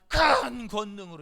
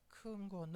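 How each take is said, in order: First: It is said big and loud. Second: It is said small and flat.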